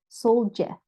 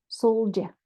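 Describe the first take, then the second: The two takes are said the same way.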